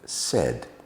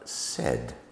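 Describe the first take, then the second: First: The vowel is a short E sound. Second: The vowel is a short E sound.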